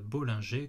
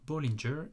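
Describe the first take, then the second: First: The name is pronounced the French way. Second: The name is pronounced the English way. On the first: The speaker calls it wrong. "comme on l'entend parfois sur les chaînes francophones" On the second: The speaker calls it right. "ça se prononce bien Bollinger"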